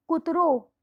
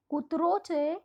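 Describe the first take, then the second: First: કૂતરો with its final રો said louder; teacher hits the રો of કૂતરો hard; stress on the ending. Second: Said in the usual way. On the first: Shown as a demonstration. Teacher showing students the masculine ending, કૂતરો said with a loud final રો. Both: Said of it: "રો આવે છે".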